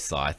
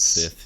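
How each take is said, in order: First: The vowel is a long i, like 'sigh'. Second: The vowel is a short i, like 'sit'. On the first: "I just can't say Scythe" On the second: "It's Sith. ... one of those bad habits"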